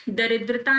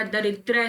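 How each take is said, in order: First: दरिद्रता with a final "taa"; the mistaken form दरिद्रता; wrong long form. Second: दरिद्र ending on "dra"; no "-taa" at the end of दरिद्र; the accepted form दरिद्र; correct short form. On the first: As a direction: add "-taa" after "daridra" in दरिद्रता. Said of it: "दरिद्रता नहीं होता". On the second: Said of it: "दरिद्र होता है". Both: Shown as a demonstration.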